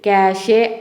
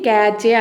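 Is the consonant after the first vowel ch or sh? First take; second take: sh; ch. First: The consonant after the first vowel is sh. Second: The consonant after the first vowel is ch. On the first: The speaker calls it right. "క్యాషే అని అనాలి" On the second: The speaker calls it wrong. "క్యాచే అని అనకూడదండి"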